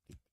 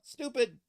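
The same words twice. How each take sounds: First: Said in the usual way. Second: "stupid" shouted high and loud; loud correction. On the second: Shown as a demonstration. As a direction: bark "Not stupid!" as a correction. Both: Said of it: "Not stupid!".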